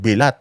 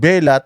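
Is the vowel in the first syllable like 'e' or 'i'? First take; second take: i; e. First: The first vowel sounds like 'i'. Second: The first vowel sounds like 'e'. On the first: The speaker calls it wrong. "bakit kailangan mong baguhin ng Bilat" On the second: The speaker calls it right. "tama naman Belat"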